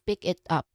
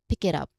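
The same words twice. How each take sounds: First: Each word is said separately without linking. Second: The words run together as one linked unit. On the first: The speaker calls it wrong. "instead of pick it up" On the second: The speaker calls it right. "So it would sound like pick it up"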